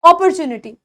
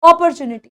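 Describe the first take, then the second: The two takes are said the same way.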